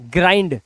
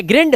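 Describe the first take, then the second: First: ग्राइंड with long "aai" glide, falling; correct pronunciation. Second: ग्रिंड with short i, questioning rise; rejected short-i ग्रिंड; wrong pronunciation. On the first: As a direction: say ग्राइंड as "graa-ind", pitch coming down. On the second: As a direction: ask ग्रिंड as "grinnd". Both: Shown as a demonstration. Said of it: "नहीं, ग्राइंड".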